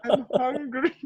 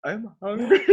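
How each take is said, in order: First: Put-on high whiny childlike whimper. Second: High whiny laughing plea. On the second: Retold or imitated. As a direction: whine like a starving kid. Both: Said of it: "So we're like".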